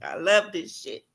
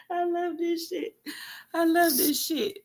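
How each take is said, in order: First: Said in the usual way. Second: High, giddy and softer, laughing through it; gleeful squeal. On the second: Real, not acted. Vlogger gloating over the news, giddy squeal. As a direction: squeal it with delight.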